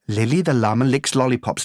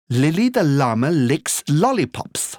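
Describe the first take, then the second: First: The phrase is said at a fast pace. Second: The phrase is said at a medium pace. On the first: "Allez encore plus vite" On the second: "Allez plus vite"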